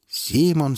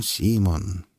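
First: High call, falling. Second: Said in the usual way. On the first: Acted. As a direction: call his name. Teacher calls out.

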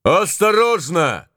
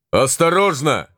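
First: Slow high warning cry; drawn-out high shout. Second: Shouted warning. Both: Acted. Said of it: "кричал Моро".

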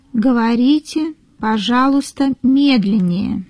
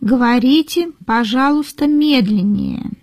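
No difference in how they are said.

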